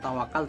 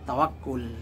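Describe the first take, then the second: First: The k is single and it ends in -al. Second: The k is doubled and it ends in -ul. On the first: This is the form used in Indonesian. The speaker calls it wrong. "bukan tawakal" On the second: This is the proper Arabic verbal noun. The speaker calls it right. "kata yang betul masdarnya"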